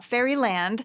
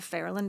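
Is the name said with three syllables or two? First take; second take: three; two. First: The name is said with three syllables. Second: The name is said with two syllables. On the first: The speaker calls it wrong. "not Fairyland, spelled Fairyland" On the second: The speaker calls it right. "but it's pronounced Fairland"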